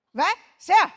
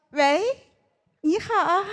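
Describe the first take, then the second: First: Loud blunt "who is it"; gruff phone answer. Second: High cutesy phone greeting; cutesy sweet voice. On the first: Shown as a demonstration. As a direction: bark into the phone. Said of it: "我长这么大一直都是这么接电话的呀". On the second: Retold or imitated. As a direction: sweeten it like a cartoon princess. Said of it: "你要用夹子音".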